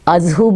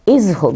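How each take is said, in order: First: The word begins with an 'a' vowel. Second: The word begins with an 'i' vowel. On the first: "इसको अज़हु भी बोलते हैं" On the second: "इज़हु भी बोलते हैं इनकी ज़ेर के साथ"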